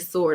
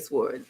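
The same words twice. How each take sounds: First: It is said without a W sound. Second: It is said with a W sound. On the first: "I don't say sword" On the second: "I pronounce the W in sword"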